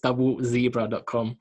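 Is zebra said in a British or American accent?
American. Zebra is said the American way.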